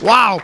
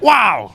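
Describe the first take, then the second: First: It is said flatly, without excitement. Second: It is said with excitement.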